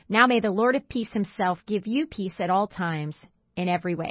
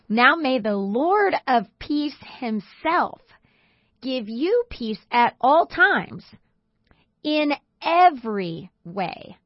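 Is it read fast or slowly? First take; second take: fast; slowly. First: It is read at a quicker pace. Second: It is read at a slower pace.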